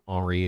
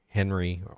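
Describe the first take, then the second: First: The name is said with a French accent. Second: The name is said with an English accent.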